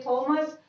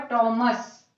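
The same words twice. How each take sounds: First: थॉमस said with a breathy थ; wrong way. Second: टॉमस with a hard ट; correct way. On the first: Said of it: "सही pronunciation है वो होगा टॉमस". (थॉमस, गलत तरीका) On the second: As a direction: say टॉमस with a clean ट. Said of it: "सही pronunciation है". (टॉमस, सही उच्चारण) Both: Shown as a demonstration.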